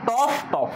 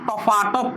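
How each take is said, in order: First: The two syllables are joined with no vowel between. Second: An extra vowel follows the first syllable. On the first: "এখানে বললাম টফ টফ" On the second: "মাঝখানে একটা স্বরধ্বনির আগমন আমি ঘটালাম"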